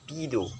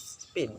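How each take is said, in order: First: An extra vowel is added after the final consonant. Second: The word ends on the final consonant. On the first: "When Japanese people pronounce is speedo, it is adding one letter in the last word" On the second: "You will uh, pronounce speed is speed"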